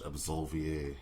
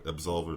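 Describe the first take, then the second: First: The word is said with French-sounding vowels. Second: The word is said with plain English sounds. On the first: "trying to make it sound French" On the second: "that sounds about right"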